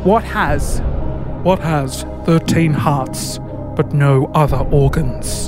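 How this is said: It is read in a put-on game-show host voice.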